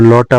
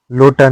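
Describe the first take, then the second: First: लौटा with an au sound; correct vowel. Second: लोटा with a pure o; wrong vowel. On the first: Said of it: "होता है". (लौटा में औ) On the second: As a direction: say लोटा as "lota". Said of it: "नहीं होता है". (लोटा में ओ) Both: Shown as a demonstration.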